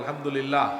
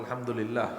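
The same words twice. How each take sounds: First: It is said loudly. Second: It is said at a normal, soft volume.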